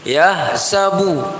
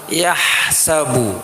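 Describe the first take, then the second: First: The h sound is weak and barely audible. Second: The h sound is clear and distinctly audible. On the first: The speaker calls it wrong. "Itu banyak yang membaca begini, ... itu nggak jelas" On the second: The speaker calls it right. "mesti haknya jelas"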